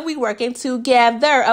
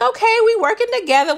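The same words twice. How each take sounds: First: TOGETHER pulled apart syllable by syllable. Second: High-pitched, quick "okay, we working together"; quick high reaction. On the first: Repeating the plan to viewers, "together" stretched for emphasis. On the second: Reacting to the little plan, quick high excitement. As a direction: rush it out high and pleased with the plan. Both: Retold or imitated.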